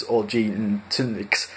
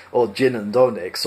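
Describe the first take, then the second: First: "gin and tonics" slow and soft, a slurred "zhee tunniks"; alien variant of gin and tonics. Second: "gin and tonics" as a crisp "chin an' donics"; another variant of gin and tonics. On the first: Narrator sampling an alien name: slow soft slurred "gin and tonics". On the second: Narrator sampling a second alien name: crisp "chin and donics". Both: Shown as a demonstration. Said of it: "variations on the same phonetic theme".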